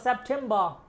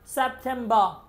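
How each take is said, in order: Both takes have the same delivery.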